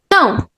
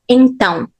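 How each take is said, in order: First: The first syllable is dropped, leaving one syllable. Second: The word is said in full with its first syllable. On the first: "We can just remove it" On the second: "sometimes we don't say então"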